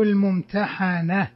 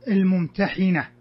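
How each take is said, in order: First: الممتحنة with an a after the ح; fatha pronunciation. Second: الممتحنة with a short i after the ح; kasra pronunciation. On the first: Teacher offering the second permitted reading, الممتحنة with fatha, "-hana". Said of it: "وبالفتح". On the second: Teacher giving the surah's name, الممتحنة read with kasra, "-hina". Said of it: "يجوز الوجهان بالكسر". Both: Shown as a demonstration.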